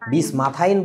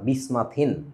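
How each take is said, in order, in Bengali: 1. শেষ অক্ষরে 'ine' যৌগ স্বরধ্বনি আছে। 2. শেষ অক্ষরে একটি হ্রস্ব 'in' স্বর আছে।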